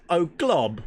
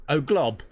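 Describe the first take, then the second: First: "Oh, glob." in a high, loud mock British accent. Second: Said in the usual way. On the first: Shown as a demonstration. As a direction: toss off "Oh, glob." as a posh Brit, higher and louder. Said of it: "read it in a British accent". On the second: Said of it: "T-Rex just wrote".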